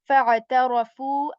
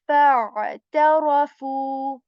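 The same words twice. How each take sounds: First: The ayn sound is passed over quickly. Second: The ayn sound is held for a moment. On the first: The speaker calls it wrong. "I'm not doing this quickly. I'm not doing this" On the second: The speaker calls it right. "I'm saying"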